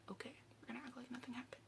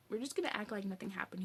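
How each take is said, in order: First: Very soft, rapid whisper; hushed agreement. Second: Said in the usual way. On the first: Retold or imitated. He agrees with her to keep quiet, hushed. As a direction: whisper it back quickly, as if in on the secret. He answers her, dying or complicit.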